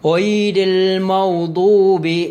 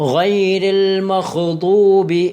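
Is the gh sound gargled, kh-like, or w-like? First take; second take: w-like; kh-like. First: The gh comes out sounding like a w. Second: The gh comes out as a voiceless kh. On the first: "വാവിൻ്റെ ഉച്ചാരണം അവിടെ വരാൻ പാടില്ല" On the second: "ഖാൻ്റെ ഉച്ചാരണം വരാൻ പാടില്ല"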